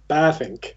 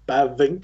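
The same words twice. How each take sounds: First: A longer A and an F-like sound. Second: A short A and a voiced V sound. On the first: The speaker calls it right. "a slightly longer A. And then the V is pronounced more like an F" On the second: The speaker calls it wrong. "So it's not really Bavink"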